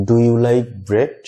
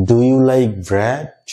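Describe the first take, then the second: First: Very slow, bread clipped short and closed; short i version. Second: Very slow, bread with an open mouth; short e model. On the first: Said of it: "আবার আমি যদি short ইর উচ্চারণটা এখানে করি". (খুব ধীরে, খাটো করে bread) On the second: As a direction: stretch it out slowly, bread wide open. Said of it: "মুখটা ওপেন থাকবে, জিহ্বাটা নিচে থাকবে". (খুব ধীরে, খোলা মুখে bread) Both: Shown as a demonstration.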